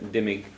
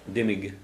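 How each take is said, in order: No difference in how they are said.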